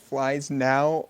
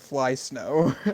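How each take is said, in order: First: The s sound ends the first word. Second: The s sound starts the second word. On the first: It names the frog's prey, flies, plus now. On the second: It is just the way that rolls better.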